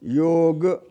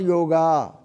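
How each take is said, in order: First: The word ends on the consonant g. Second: The word ends with an added a vowel. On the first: The speaker calls it right. "योग ऐसा ही है" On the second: The speaker calls it wrong. "This is not योगा"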